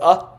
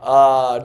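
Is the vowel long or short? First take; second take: short; long. First: The vowel is short. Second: The vowel is drawn out long. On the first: "ah will be prakasha" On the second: "it's just ah, but longer"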